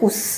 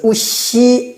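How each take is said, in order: First: The word ends on a bare consonant. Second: The word ends with a short vowel sound. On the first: The speaker calls it right. "그냥 우스 하면 되면" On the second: The speaker calls it wrong. "우시 안 하고"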